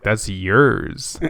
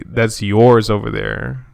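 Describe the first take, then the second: First: "yours" said like "yeers"; accented "yours". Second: "yours" with an open or vowel, like "yors"; standard "yours". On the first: Retold or imitated. Speaker recalling his own accent slip, "yours" as "yeers". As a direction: say "yours" with a narrow ee-er vowel, as yeers. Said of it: "when I first noticed that I had a, uh, an accent". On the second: Shown as a demonstration. Speaker correcting his own slip, slow "yours" as "yors". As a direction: say it slowly, "yours" rhyming with doors. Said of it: "Why didn't I say".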